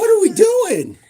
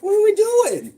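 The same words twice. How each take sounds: First: High loud question through laughter; laughing. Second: High, loud exasperated shout. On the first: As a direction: let the laugh break through it. Repeats it laughing. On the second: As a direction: yell it in playful disbelief. Exasperated shout during filming. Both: Real, not acted.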